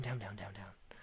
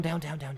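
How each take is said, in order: First: Much lower and softer, down to a whisper; fading to a whisper. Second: Said in the usual way. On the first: Shown as a demonstration. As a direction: let each down sink lower until whispered. Recursion going deeper.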